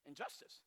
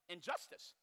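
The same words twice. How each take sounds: First: Breathy whisper on "Injustice". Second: Said in the usual way. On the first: Shown as a demonstration. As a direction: hush "Injustice" to nothing. Repeats word, second whispered.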